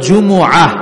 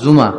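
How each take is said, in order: First: The word is said fully, as Ju-mu-ah. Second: The word is shortened, said as Ju-ma. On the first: "সূরাটার নাম হচ্ছে সূরাতুল জুমুআহ" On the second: "অনেকে বলে ফেলে জুমা"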